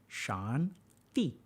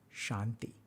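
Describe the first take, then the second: First: The word is said slowly, syllable by syllable. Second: The word is said smoothly at normal speed.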